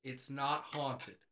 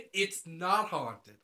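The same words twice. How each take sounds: First: Slow "it's not haunted" in usual pitch; reading a sign. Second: "It's not haunted" very slow and louder; distinctly emphatic. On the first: Reading the free couch sign, slow deadpan "it's not haunted". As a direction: spell out "it's not haunted" slowly and evenly. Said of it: "put a sign on it that says". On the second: Insisting on the couch sign, very slow emphatic "It's not haunted". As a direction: stretch out "It's not haunted" with firm weight. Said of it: "I put distinctly that it's not haunted". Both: Acted.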